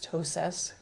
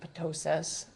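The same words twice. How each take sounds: First: The initial P is silent; it starts with T. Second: The initial P is pronounced before the T. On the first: The speaker calls it right. "So you drop the P" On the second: The speaker calls it wrong. "you don't say ptosis"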